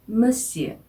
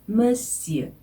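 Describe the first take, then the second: Both takes have the same delivery.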